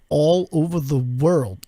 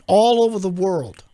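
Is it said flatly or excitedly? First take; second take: flatly; excitedly. First: It is said flatly, like a statement. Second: It is said excitedly, like an exclamation.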